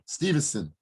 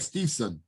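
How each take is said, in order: First: It has an N sound after 'Steve'. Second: It has no N sound after 'Steve'. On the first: The speaker calls it wrong. "it's not Steven" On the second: The speaker calls it right. "No, he's right"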